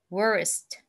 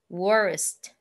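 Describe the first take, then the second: Both takes have the same delivery.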